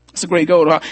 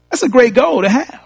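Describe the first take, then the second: First: Said in the usual way. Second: Raised exclamation. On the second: Shown as a demonstration.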